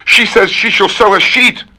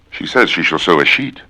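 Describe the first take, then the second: First: A silly high put-on voice; high squeaky voice. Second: Said in the usual way. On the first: Reciting tongue twisters, high cartoon squeak.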